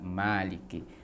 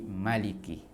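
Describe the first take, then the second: First: The first vowel is long. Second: The first vowel is short. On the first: "bukan dengan maliki" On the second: "Pendek berarti maliki"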